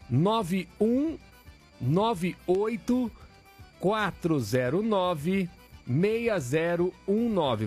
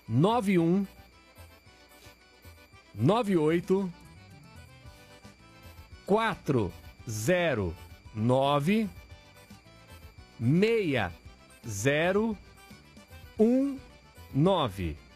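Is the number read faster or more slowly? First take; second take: faster; more slowly. First: The number is read at a faster pace. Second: The number is read at a slower pace.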